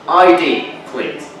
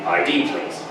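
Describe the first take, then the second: First: The request is said in a stern tone. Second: The request is said in a neutral tone.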